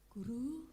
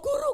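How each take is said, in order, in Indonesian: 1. Diucapkan dengan pelan dan lembut. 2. Diucapkan dengan cepat dan mendesak. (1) "Pelan, slowly"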